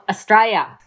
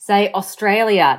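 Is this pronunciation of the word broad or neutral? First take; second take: broad; neutral. First: The word is said in a broad Australian accent. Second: The word is said in a less broad accent. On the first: The speaker calls it wrong. "not Australia" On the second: The speaker calls it right. "kept on having to say Australia"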